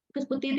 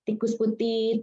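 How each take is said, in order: First: The phrase is said faster. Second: The phrase is said slowly. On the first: "Kita bicara lebih cepat lagi" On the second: "kita mulai bicara perlahan dulu"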